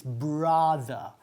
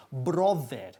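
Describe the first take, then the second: First: "brother" as a drawn-out "BRA-tha"; slow "brother" with open first vowel and loose ending; open-jawed vowel. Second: "brother" with a rounded O and a full E at the end; wrong "brother", O vowel and clear final E; Spanish-accented mispronunciation. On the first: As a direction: drop the jaw for an open A in "brother". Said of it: "Bajando la mandíbula". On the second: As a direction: say "brother" as Spanish-style "BRO-der". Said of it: "Y no decimos brother". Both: Shown as a demonstration.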